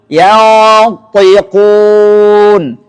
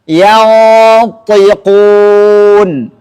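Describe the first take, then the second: No difference in how they are said.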